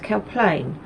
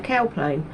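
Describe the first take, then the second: First: The stress is on the second syllable. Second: The stress is on the first syllable. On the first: This is how the local people say it. The speaker calls it right. "but no, it's Cow Plain" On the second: This is the speaker's own Essex way of saying it. The speaker calls it wrong. "not I'd say Cow Plain"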